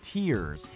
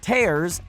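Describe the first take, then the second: First: It is said like the word for crying. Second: It is said like the word for ripping. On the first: Drops of water from the eyes. The speaker calls it wrong. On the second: Damage or breakage in hair. The speaker calls it right. "tears in your hair"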